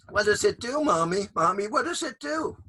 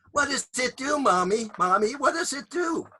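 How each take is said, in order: First: Put-on child voice. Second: Put-on high, insistent little kid; child voice. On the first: Child asks again. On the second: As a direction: pester like a curious child. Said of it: "I will repeat it for you here".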